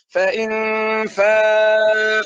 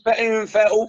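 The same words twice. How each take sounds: First: The long vowel is stretched out for extra time. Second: The long vowel is cut short quickly. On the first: The speaker calls it right. "بدك تمد هون أربع حركات" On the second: The speaker calls it wrong. "ما تقول فإن فاء"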